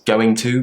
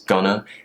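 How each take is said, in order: First: Both words are said fully and separately. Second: The words are shortened and run together.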